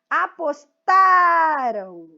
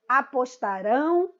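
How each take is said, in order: First: The stress falls on the second-to-last syllable. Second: The stress falls on the last syllable. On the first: The action happened in the past. "Vejam que o rão vai morrendo aí o som dele" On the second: The action will happen in the future. "Todos é a última, ... a sílaba rão"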